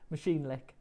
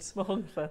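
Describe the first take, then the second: First: The name sounds like English 'machine lick'. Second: The name is said with Welsh sounds. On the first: The speaker calls it wrong. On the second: The speaker calls it right.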